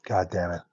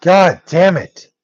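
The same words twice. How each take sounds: First: Soft, under-the-breath God damn it; muttered curse. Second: "God damn it" stretched slow at normal volume; slow drawn-out curse. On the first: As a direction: mutter "God damn it" low and much softer. Swearing under breath at the game. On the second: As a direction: drag out "God damn it" slowly, each word heavy. Swearing again, drawn out. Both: Real, not acted.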